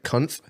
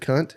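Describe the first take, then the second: First: The word ends with a th sound. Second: The word ends with a plain t sound. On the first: A playful variant that only sounds like the swear word. "you can throw like a T H on the end of it" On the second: The actual swear word.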